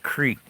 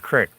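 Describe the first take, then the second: First: The word is said as 'creek'. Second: The word is said as 'crick'. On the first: This is the form the speaker has to think about to use. "I have to really think about it to say the word creek" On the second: This is the form the speaker usually uses. "usually I call it a crick"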